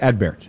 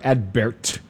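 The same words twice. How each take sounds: First: The T is audible but soft and light. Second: The T is a hard, strong plosive. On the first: The speaker calls it right. "the T is pronounced, but it is not pronounced powerfully" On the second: The speaker calls it wrong. "or Adbert"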